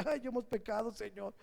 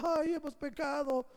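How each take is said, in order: First: Mock whining. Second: Higher, hammed-up tearful whine; mock wail of regret; mock whining. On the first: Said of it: "chillaba y dice". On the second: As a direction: whine it like fake tears, higher. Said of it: "de lágrimas chillando".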